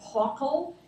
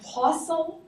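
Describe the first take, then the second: First: The middle consonant is a k sound. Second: The middle consonant is an s sound. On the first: This is how other people pronounce it. "but other people pronounce as pockle" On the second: This is the speaker's own usual pronunciation. "which I tend to pronounce as possal"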